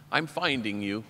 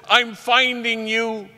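First: Low, soft, reflective; hushed and lower, taking it in; quiet self-recognition. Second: High, slow, drawn-out joy; beaming, elated and pitched way up; overjoyed. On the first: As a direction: say it gently to yourself in the mirror. Same words said softly to mirror. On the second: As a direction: imitate an overjoyed kid at the door. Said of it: "but so overjoyed". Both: Retold or imitated.

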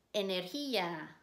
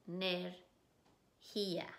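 First: Said in the usual way. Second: "Energía" slowly in pieces, e, ner, gía; split into syllables. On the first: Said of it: "repetir la palabra y decir las sílabas". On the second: Shown as a demonstration. Teacher breaks the word down for students, "Energía" slowly syllable by syllable. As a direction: sound out "Energía" with gaps between syllables. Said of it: "decir las sílabas".

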